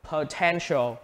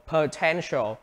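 No difference in how they are said.

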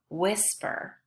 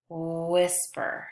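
First: Said in the usual way. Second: "whisper" with a long, level oo glide at the start; stretched wh sound. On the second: Shown as a demonstration. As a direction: hold the "wh" of "whisper", then say the rest. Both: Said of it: "They all have the, the woo sound".

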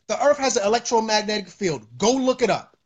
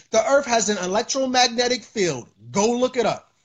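The two takes are said the same way.

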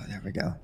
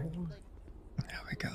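First: Said in the usual way. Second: Whispered, slow; whispering. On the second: Real, not acted. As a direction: breathe it out under the breath. Muttered aside while paying.

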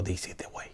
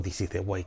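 First: Soft whispered "This is the way"; hushed reverent Mandalorian motto; whispered quote. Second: Said in the usual way. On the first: Retold or imitated. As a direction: breathe the motto like a secret. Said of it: "Y me dijo". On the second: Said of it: "En realidad no dijo".

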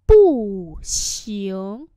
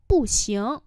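First: Each syllable stretched out, louder; slow, emphatic learner-friendly repeat; slow model pronunciation. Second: Said in the usual way. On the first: Shown as a demonstration. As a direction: teach it syllable by syllable. Teacher repeats phrase slowly.

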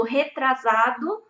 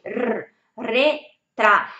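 First: "retrasado" said very slowly with a Brazilian Portuguese R; wrong Brazilian pronunciation; Portuguese accent. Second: "r, retra" drawn out very slowly with a hard rolled R; exaggerated R drill; strong R demo. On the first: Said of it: "eu falo assim, em português retrasado". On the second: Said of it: "Se eles falam R forte". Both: Shown as a demonstration.

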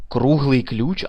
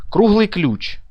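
First: Said in the usual way. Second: "Круглий ключ" whispered, higher. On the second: Real, not acted. Player reading a strange item name, whispered. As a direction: breathe the item name to yourself.

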